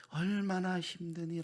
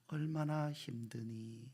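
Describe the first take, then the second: First: Slow, lifted, gently pleading repeat; tender repeat. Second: Soft, slow, gentle voicing of God; tender question. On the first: Acted. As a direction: lean in with more compassion the second time. God's question repeated, rising. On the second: God asking a weary Hagar, soft and slow. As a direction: ask it like comforting a hurting child.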